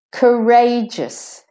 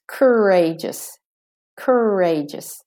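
First: Courageous as kuh-RAY-jus, high slow RAY; stress on RAY. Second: Courageous as American ker-RAY-jus, R-coloured first syllable; slow American courageous, hold the first R; American pronunciation. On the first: Teacher showing British and Australian stress, RAY stressed in courageous. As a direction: stretch the middle of courageous, weak first syllable. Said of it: "that is stressed is the ray". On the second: Teacher showing the American version, American courageous. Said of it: "In American". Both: Shown as a demonstration.

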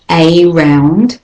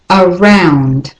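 First: A round with a full AY, AY ROUND; a round as two stressed words; wrong way. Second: Around with a schwa start, uh-ROUND; right way. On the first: Teacher shows how not to say a round. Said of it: "the next word is not a round". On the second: Teacher models around with a schwa. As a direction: around begun with a weak uh. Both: Shown as a demonstration.

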